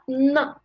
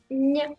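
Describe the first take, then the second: First: The n is hard, with no y glide. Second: The n is soft, with a y glide. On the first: The speaker calls it wrong. "C'est pas na à la fin" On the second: The speaker calls it right. "c'est nya"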